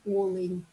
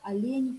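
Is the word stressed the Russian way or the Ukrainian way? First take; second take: Ukrainian; Russian. First: The word carries the Ukrainian stress. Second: The word carries the Russian stress. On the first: "«олень» по-украински" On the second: "«олень» в русском языке"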